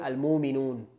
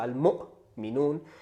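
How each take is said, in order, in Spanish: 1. La palabra fluye suavemente, sin golpe glotal. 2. Un golpe glotal corta la palabra en medio. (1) "todo seguido, no hacen esta pausa" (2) "se hace una pausa"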